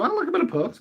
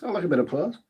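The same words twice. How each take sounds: First: Much higher, squeaky put-on voice. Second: Said in the usual way. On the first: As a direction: squeak the line up high. Repeats line in high voice.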